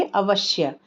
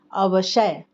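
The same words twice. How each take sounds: First: अवश्य with a half श running straight into य, a-vash-ya; the right way, अवश्य with the half श; correct half sha. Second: अवशय said with a full श and its own vowel, a-va-sha-ya; the wrong way, अवशय with a full श. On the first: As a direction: say अवश्य in three syllables, श joined to य. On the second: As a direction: sound out अवशय in four syllables, giving श a full vowel. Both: Shown as a demonstration. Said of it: "लेकिन आधा श है तो क्या बोलेंगे".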